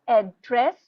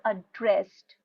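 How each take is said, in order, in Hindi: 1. Stress पहले syllable पर है। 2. स्ट्रेस दूसरे सिलेबल पर है। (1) "लाइक ए डबल डी पर" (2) "जैसे ड्रेस्ड पर था"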